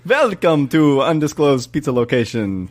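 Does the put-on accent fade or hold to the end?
fades. The vampire accent fades partway through the sentence.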